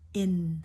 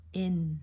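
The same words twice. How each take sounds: The two takes are said the same way.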